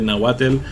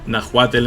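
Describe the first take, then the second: First: The H is weak, barely aspirated. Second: The H is strongly aspirated and breathy.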